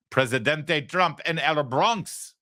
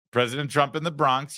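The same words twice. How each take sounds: First: Presidente and El said slowly the Spanish way, with a high lift; Spanish reading. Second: Said in the usual way. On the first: Shown as a demonstration. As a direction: read the sign slowly in Spanish.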